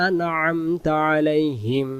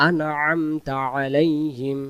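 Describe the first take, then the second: No difference in how they are said.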